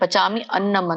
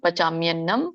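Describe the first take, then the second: First: The two words are said separately. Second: The two words are run together. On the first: "ಪಚಾಮಿ ಅನ್ನಂ ಅಂತ ಬರುತ್ತೆ" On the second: "ಕೂಡಿ ಹೇಳಿ"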